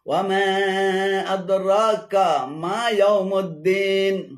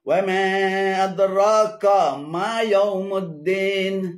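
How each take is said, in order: Both takes have the same delivery.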